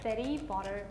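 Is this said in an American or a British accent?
American. An American accent, with a d-like t. "are you ready to try the American one?"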